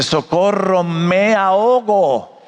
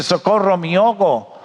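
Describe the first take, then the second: First: "me ahogo" very slow, every vowel separate; correct careful pronunciation. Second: "me ahogo" run together as "miogo"; corrected slurred pronunciation. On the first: Educated man corrects the drowning boy, "me ahogo" slowly and fully articulated. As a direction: stretch "me a-ho-go" out slowly, syllable by syllable. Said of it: "se dice". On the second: Educated man quotes the boy's mistake, "me ahogo" slurred as "miogo". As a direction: slur "me ahogo" into "mi-ogo", the vowels merged. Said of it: "Niño, no se dice". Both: Shown as a demonstration.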